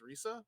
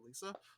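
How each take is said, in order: First: The name begins with an R-like sound. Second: The name begins with an L sound. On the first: This is the Japanese form of the name. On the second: This is the English form of the name.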